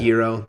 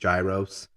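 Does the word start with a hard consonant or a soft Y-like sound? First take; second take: soft Y-like; hard consonant. First: The word starts with a soft Y-like sound. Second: The word starts with a hard consonant sound. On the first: The speaker calls it right. "instead of" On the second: The speaker calls it wrong. "so people don't butcher it like they do gyros"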